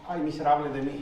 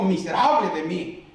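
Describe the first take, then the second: First: It is said as a weak, sighing lament. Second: It is said as a strong, loud exclamation.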